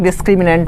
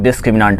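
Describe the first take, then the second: First: डिस्क्रिमिनेंट with an E sound in the last syllable; डिस्क्रिमिनेंट pronounced dis-kri-mi-NENT, not "-naant"; "nent" ending. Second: डिस्क्रिमिनेंट with a long AA in the last syllable; डिस्क्रिमिनेंट pronounced dis-kri-mi-NAANT, not "-nent"; "naant" ending. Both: Shown as a demonstration. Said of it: "pronunciation में ज़्यादा बहस नहीं".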